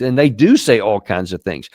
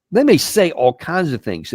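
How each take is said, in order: First: "do" pressed firmly, sentence pitched lower; stress on do. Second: "may" lifted a little and leaned on; stress on may. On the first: To the audience, insisting they really talk, stress on "do". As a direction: insist on "do" to confirm it really happens. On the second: To the audience, conceding what leaders say, light stress on "may". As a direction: give a light weight to "may" to concede the point. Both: Shown as a demonstration.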